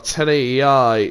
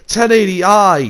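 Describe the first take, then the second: First: It is said in an unimpressed, flat tone. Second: It is said in an impressed, excited tone. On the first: The picture quality seems poor. "And now it's like, oh" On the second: The picture quality seems amazing. "at the time it would have been like, whoa"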